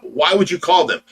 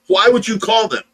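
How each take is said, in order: First: First "Why would you call them?" said as a mild mock complaint; the nurse starts her fit, asking "Why would you call them?" with a little heat; retold fit, first time. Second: The nurse's fit builds as she repeats "Why would you call them?" up high; retold fit, rising. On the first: Quoting the nurse's angry question, understated. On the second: Repeating the nurse's angry question higher, a half-hearted mock yell. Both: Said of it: "she just threw a fit about".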